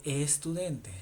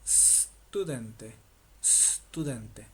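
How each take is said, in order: First: Estudente with an added E before the st; wrong pronunciation. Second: Studente said with no vowel before the st; correct Italian pronunciation. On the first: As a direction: say estudente the wrong Spanish way, with the initial e. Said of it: "No se dice estudente". (estudente con la e inicial, como en español) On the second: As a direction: start straight on the s of studente. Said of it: "se dice". (studente sin la e delante, con la s inicial) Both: Shown as a demonstration.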